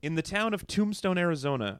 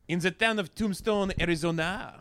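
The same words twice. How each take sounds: First: It is read in a plain, unaccented voice. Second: It is read in a put-on French accent.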